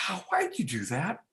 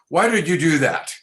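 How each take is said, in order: First: It sounds curious, with childlike wonder. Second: It sounds accusing, like an interrogation.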